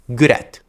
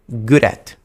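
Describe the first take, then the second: The two takes are said the same way.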